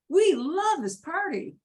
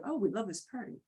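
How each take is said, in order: First: "We" and "love" pitched high, swooping up and down; emphatic inflection. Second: Said in the usual way. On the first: Shown as a demonstration. Teacher contrasting with the plain take, emphatic inflection. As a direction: hit "We love" with high, rolling pitch swings. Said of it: "we go up and down". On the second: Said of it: "Instead of".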